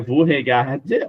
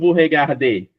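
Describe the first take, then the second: First: The verb ends on the d without a vowel. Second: The verb ends with a clear final e vowel. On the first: The speaker calls it wrong. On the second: The speaker calls it right.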